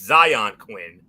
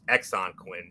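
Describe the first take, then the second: First: The name begins with a 'z' sound. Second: The name begins with an 'eks' sound. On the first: The speaker calls it right. "but it's Zion Quinn" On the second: The speaker calls it wrong. "we've heard M F say Exxon Quinn many of times"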